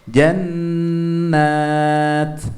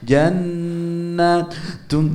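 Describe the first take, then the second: First: The word stops short on the -at. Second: The word ends with a full -un ending. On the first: The reader stops at this point. The speaker calls it right. "kita harus wakaf, berhenti" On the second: The reader carries on instead of stopping. The speaker calls it wrong.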